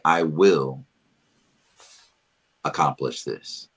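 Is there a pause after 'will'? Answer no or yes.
yes. It is said with a pause after 'will'. It becomes a command to yourself. "If you add a pause after will, it changes it"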